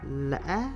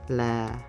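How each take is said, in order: First: The pitch rises to the highest level. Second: The pitch is low on the syllable. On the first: "this tone gives the highest rising pitch among the six tones" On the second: "This tone gives a low pitch"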